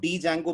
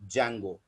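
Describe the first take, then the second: First: It begins with a spoken 'dee' sound. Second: It begins directly with a 'j' sound. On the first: The speaker calls it wrong. "इसमें डी याद रखिएगा silent होता है, तो इसको डी जैंगो मत पढ़िएगा" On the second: The speaker calls it right. "It is always pronounced as जैंगो"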